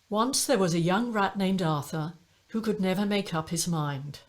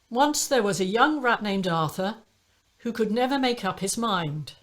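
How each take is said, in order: First: The voice is slightly breathy and softer. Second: The voice is clear with no audible breath.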